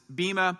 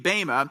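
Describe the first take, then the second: First: The word is said with an English pronunciation. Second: The word is said with its Greek pronunciation. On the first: "In English, sometimes people pronounce this Bema" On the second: "the translation in Greek would be Bema"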